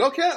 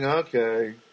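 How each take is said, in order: First: It sounds content, as if things are fine. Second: It sounds unhappy, as if things are not good.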